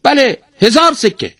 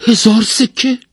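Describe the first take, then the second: First: High, loud parrot voice, falling firmly; emphatic high-pitched bird reply; parrot confirming. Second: High, loud, rising question; merchant's voice shooting up in surprise; astonished. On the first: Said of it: "توتی گفت". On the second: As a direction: echo the price in sheer amazement. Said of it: "مرد بازرگان با تعجب پرسید". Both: A narrator's reading.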